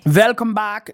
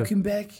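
First: It is said in an Eastern European-sounding accent. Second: It is said in a French-sounding accent. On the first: The speaker calls it wrong. "That was my French accent. / it sounded more like Eastern European" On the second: The speaker calls it right. "There we go. You got it. ... We got a bit of French there"

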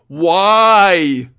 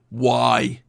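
First: It is said loudly. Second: It is said at normal volume.

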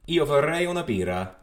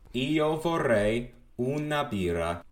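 First: It is said at normal, fast speed. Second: It is said slowly.

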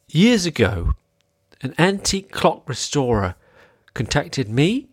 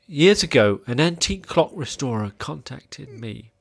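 First: The voice rises at the end, like a question. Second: The voice sinks at the end, sounding sad. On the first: "I did some upspeak" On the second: "That was too sad"

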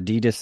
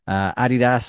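First: It is said with an American pronunciation. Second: It is said with a non-American pronunciation.

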